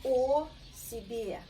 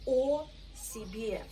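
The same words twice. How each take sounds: First: Russian model phrase repeated. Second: О себе, said clearly for repeating; Russian model phrase. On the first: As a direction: say О себе again clearly. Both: Shown as a demonstration.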